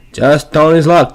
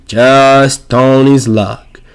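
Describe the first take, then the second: First: Said in the usual way. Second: Just Tony's luck drawn out very slowly; a very slow, dry Just Tony's luck; slow wry delivery. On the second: Shown as a demonstration. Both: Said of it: "repeats the line".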